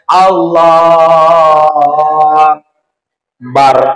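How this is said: A gap separates the two drawn-out words.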